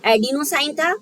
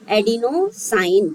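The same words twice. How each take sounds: First: Said in the usual way. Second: Adenosine stretched out very slowly; teacher repeating the word slowly; slow sounding out. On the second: Shown as a demonstration. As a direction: drag adenosine out for the class. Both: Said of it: "तो देखो".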